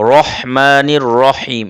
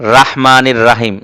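First: The 'ra' is heavy, with a rounded, darker vowel. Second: The 'ra' is light, with an open 'aa' vowel. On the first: The speaker calls it right. "রহমানির রহিম এভাবে হবে" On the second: The speaker calls it wrong. "অনেকে আমরা রা বলি, ... এভাবে বলার চেষ্টা করি, কিন্তু না"

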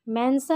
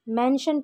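First: The middle consonant is an s sound. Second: The middle consonant is a sh sound. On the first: The speaker calls it wrong. "मेंशन नहीं पढ़ेंगे" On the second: The speaker calls it right. "बल्कि मेंशन पढ़ेंगे"

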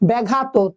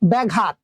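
First: The final t is released with a vowel. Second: The word ends abruptly on the final t consonant. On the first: The speaker calls it wrong. "এইভাবে কিন্তু আমরা ছেড়ে দিচ্ছি না" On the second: The speaker calls it right. "থেমে যাচ্ছে, অর্থাৎ এটা হচ্ছে বদ্ধ করে ফেলছি"

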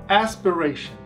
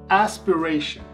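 No difference in how they are said.

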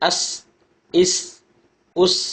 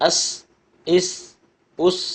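The two takes are said the same way.

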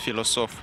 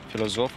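First: The middle consonant is a hissing s sound. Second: The middle consonant is a buzzing z sound.

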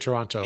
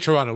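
First: It is pronounced the American way. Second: It is pronounced the Canadian way. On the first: "We say Toronto" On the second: "They say Toronto"

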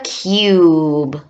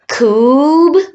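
First: The vowel is said as 'you'. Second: The vowel is said as 'oo'. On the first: The speaker calls it right. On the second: The speaker calls it wrong. "Is it you or oo?"

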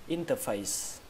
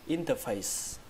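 The two takes are said the same way.

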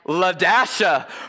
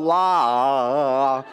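First: The hyphen is spoken as 'dash' in the middle. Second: The hyphen is skipped, giving just 'La-a'. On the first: The speaker calls it right. "Say it with me" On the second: The speaker calls it wrong. "That's not how you say it"

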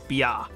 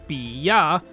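First: It is said as one merged syllable. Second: It is said as two separate syllables. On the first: The speaker calls it right. "we read it as bia, like biako" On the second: The speaker calls it wrong. "instead of reading this as bia"

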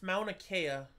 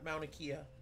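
First: Kea is said with an 'eh' vowel. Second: Kea is said with an 'ee' vowel. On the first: The speaker calls it right. "It's Mauna Kea, sweetheart" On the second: The speaker calls it wrong. "not Mauna Kea"

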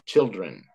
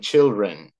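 First: A clear d sound comes before the r. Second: The d sound before the r is missing. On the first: The speaker calls it right. "Got to get that D sound in there right before the R" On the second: The speaker calls it wrong. "you're not saying that quite right. You're saying children"

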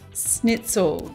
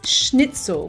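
First: The word begins without an sh sound. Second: The word begins with an sh sound. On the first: The speaker calls it wrong. "it's not pronounced schnitzel" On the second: The speaker calls it right. "with an esh, with a sh, like in sherry"

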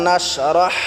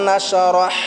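No difference in how they are said.

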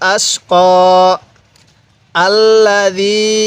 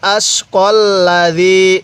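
First: There is a pause between the two words. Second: The two words are joined without a pause. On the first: The reciter stops after the first word. "তো আমরা এখানে ওয়াকফ করব।" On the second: The reciter continues without stopping. "যদি ওয়াকফ না করি এরকমভাবে পড়ব।"

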